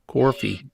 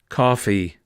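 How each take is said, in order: First: The first syllable sounds like 'core'. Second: The first syllable has no 'core' sound. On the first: This is how friends from Rhode Island, Connecticut and New York say it. "like C O R, core, or C O A R, core" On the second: This is how the speaker says it in Boston. "That's how I say it"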